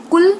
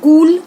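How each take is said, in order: First: कुल with a quick short U; short vowel. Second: कूल high and loud with a long OO; long vowel. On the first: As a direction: keep the U in कुल brief. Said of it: "उच्चारण पर ध्यान दीजिए". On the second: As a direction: stretch the OO in कूल, louder. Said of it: "गलत हो गया". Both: Shown as a demonstration.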